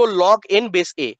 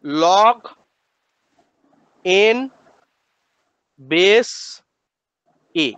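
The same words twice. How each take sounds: First: "Log n base a" read out slowly as one connected phrase; proper reading. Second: "Log ... n ... base ... a", long pause after each word; word-by-word pronunciation. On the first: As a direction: model "Log n base a" slowly, falling at the end. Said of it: "একটু ভদ্রভাবে বলুন". ("Log n base a" ভদ্রভাবে, ধীরে একটানা বলা) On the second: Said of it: "এইভাবে উচ্চারণ করবো". ("Log n base a" থেমে থেমে, একটা একটা শব্দ করে উচ্চারণ) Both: Shown as a demonstration.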